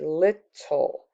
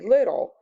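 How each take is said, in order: First: The middle consonant is a clear, emphasized T. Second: The middle consonant sounds like a soft D. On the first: "So I'm trying to emphasize the T" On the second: "So it sounds like a D"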